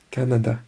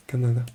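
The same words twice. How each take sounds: The two takes are said the same way.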